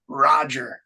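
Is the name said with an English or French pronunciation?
English. The name is said with an English pronunciation. "Americans, Australians, British say Roger"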